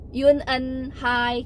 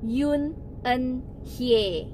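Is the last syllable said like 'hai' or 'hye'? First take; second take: hai; hye. First: The last syllable sounds like 'hai'. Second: The last syllable sounds like 'hye'. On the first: The speaker calls it wrong. "tulisannya Hye dibacanya Hai" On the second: The speaker calls it right. "dibacanya itu adalah Hye, bukan Hai"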